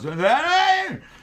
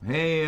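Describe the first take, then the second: First: The word is said in an anxious, urgent voice. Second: The word is said in a calm, relaxed voice. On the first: Something is urgent and action is needed now. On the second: Things are under control.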